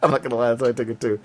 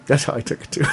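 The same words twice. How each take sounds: First: I'm not gonna lie rushed through laughter; fast laughing. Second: That's how I took it too through a laugh. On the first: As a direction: rattle it off while laughing. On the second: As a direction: chuckle the line. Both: Real, not acted.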